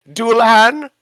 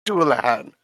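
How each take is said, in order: First: High, rising, loud guess at the name; unsure question. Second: Said in the usual way. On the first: Real, not acted. Player asking the GM the monster's name, a high questioning guess. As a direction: toss the word up as an unsure question, Dualahan with a high rising end.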